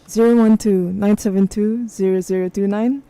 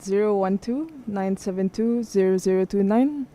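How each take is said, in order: First: It is read in a put-on radio DJ voice. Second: It is read in an ordinary speaking voice.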